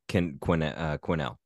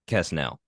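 First: No S sound is pronounced in the name. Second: An S sound is pronounced in the name. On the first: The speaker calls it right. "I would say it's a silent S" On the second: The speaker calls it wrong. "I don't think it's Kesnell"

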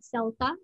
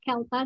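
First: The word begins with an S sound. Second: The word begins with a K sound. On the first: The speaker calls it wrong. "not CELTA. Most people say CELTA because C stands for certificate" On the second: The speaker calls it right. "it's pronounced as CELTA"

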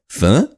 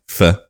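First: The word rises in pitch like a confused question. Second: The word is said with a plain, level pitch. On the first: The speaker calls it right. "you go "fur," like you're really confused" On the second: The speaker calls it wrong. "you don't say it like "fur,""

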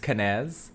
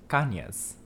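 First: The middle consonant is a plain n sound. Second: The middle consonant is an ny sound. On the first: This is the anglicized form of the name. The speaker calls it wrong. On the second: This is the original Spanish form of the name. The speaker calls it right. "correctly pronounced ... Because it has that N-Y"

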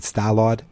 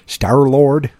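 First: It is said in a big Boston accent. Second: It is said in his normal accent.

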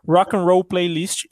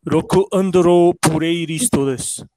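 First: It is said in the speaker's normal Brazilian accent. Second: It is said in an imitated Japanese accent.

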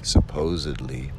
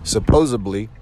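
First: It is said the standard way, without a b. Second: It is said in a regional way with a b. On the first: The speaker calls it right. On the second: The speaker calls it wrong.

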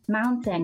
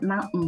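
First: The middle t sound is fully pronounced. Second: The middle t sound is swallowed as a stop.

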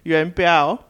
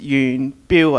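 First: The name is given its Mandarin pronunciation. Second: The name is given its Cantonese pronunciation. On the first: "So Mandarin is Yuan Biao" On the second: "So in Cantonese, it's Yuan Biu, I think"

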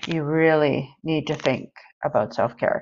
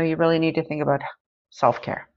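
First: It is said in a drawn-out, savoring, indulgent way. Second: It is said in a plain, matter-of-fact way. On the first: "she made that sound like she was sampling cheese" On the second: "But she didn't really say it like that"

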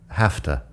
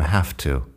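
First: The words are quick with a short final vowel. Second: The words are joined with a full final vowel. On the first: "si estoy hablando un poco más rápido, con al final de to, la vocal corta" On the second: "se acorta, se pegan las dos palabras"

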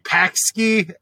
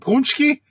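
First: The first syllable sounds like 'pax'. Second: The first syllable sounds like 'punch'. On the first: The speaker calls it wrong. "And they're like" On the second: The speaker calls it right. "you mean Punchki?"

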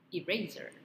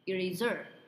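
First: The stress is on the erase part. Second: The stress is on the last syllable. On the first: The speaker calls it right. "jadi di erase" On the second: The speaker calls it wrong. "penekanannya tuh di terakhir"

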